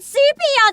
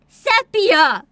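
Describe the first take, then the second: First: The first vowel is not an 'eh' sound. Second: The first vowel is an 'eh' sound. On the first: The speaker calls it wrong. "It is not sepia" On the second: The speaker calls it right. "it's supposed to be eh, eh, like se, sepia"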